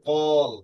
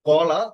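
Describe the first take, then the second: First: The word ends on a bare consonant. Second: The word ends with a final vowel. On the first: "আমরা পড়তে পারি কল" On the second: "যেমন এটা কলা"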